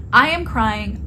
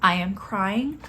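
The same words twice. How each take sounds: First: I am crying said louder and pushed; loud, urgent retelling. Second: Said in the usual way. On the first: Retold or imitated. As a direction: push the words out, overwhelmed.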